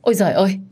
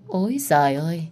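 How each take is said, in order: First: Startled exclamation, a bit louder; alarmed cry. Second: Mock exclamation. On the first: Acted. In-laws rush in at the scream, crying out in alarm. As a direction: cry out in dismay. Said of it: "thì kêu lên". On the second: Lam scoffs at Hạ's lies, sarcastic. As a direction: scoff at the lie. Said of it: "chị diễn với em tới cùng".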